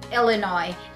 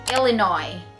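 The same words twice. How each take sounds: First: The final S is silent. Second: The same.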